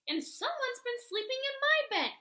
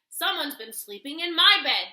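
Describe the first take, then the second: First: It is said in a tiny, small bear growl. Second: It is said in a huge, deep bear growl.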